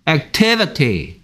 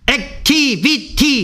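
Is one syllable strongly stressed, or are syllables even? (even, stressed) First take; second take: stressed; even. First: The second syllable carries strong stress. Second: All syllables are said with even weight. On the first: The speaker calls it right. "activity 이렇게 하죠" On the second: The speaker calls it wrong. "얘들은 액티비티 이렇게 발음 안 해요"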